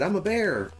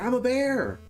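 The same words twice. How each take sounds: First: It is said in a plain, calm way. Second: It is said with more energy and enthusiasm.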